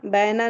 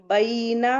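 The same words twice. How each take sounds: First: "बैना" with a flat open e, short; wrong reading. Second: "बैना" said ba-ii-na, a gliding into a held i; careful, lengthened ai; correct leen reading. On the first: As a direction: baena without the i glide. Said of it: "नहीं पढ़ना है". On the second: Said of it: "बैना नहीं पढ़ना है". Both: Shown as a demonstration.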